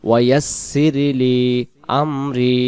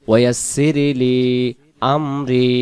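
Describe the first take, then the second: Both takes have the same delivery.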